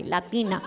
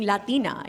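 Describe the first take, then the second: First: Latina said the American way, flat a as in cat; anglicized Latina. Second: Said in the usual way. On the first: Shown as a demonstration. A Colombian comic saying Latina the whitewashed American way. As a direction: Latina with an English lat, not a Spanish one. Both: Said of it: "started saying it that way".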